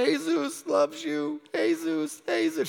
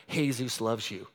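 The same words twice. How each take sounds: First: Higher, slow and soothing; slow, high, tender "Jesus loves you"; tender comfort. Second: Half-laughing "Jesus loves you" said low and soft; laughing, quiet. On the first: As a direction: comfort him gently while holding him. Hugging the crying stranger. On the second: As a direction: lower and softer, laughing through it. Tries Spanish on stranger, laughing. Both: Retold or imitated.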